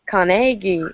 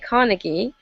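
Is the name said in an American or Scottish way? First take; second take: Scottish; American. First: The name is said the Scottish way. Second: The name is said the American way.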